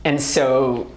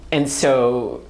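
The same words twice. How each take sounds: The two takes are said the same way.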